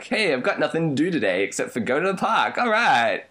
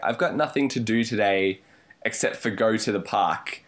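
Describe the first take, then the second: First: It sounds cheerful and upbeat. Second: It sounds gloomy and depressed.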